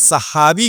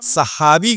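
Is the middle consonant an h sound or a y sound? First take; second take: h sound; h sound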